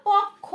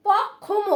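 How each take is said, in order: First: পক্ষ said pokkho, with kh and no m; correct pronunciation. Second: পক্ষম with the m sounded at the end; wrong reading. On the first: Teacher giving students the right form, clear model. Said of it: "খ উচ্চারণ হবে কিন্তু". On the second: Teacher warning students of the common error, wrong reading. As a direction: mimic the common mistake পক্ষম. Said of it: "অনেকে বলতে পারো". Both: Shown as a demonstration.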